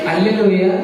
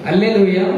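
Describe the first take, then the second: Both takes have the same delivery.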